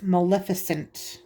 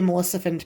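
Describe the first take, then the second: First: The start sounds like the word 'malefic'. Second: The start does not sound like 'malefic'. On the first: The speaker calls it right. "but it's Maleficent, like Malefic" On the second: The speaker calls it wrong. "I always say that wrong. I always say Maleficent"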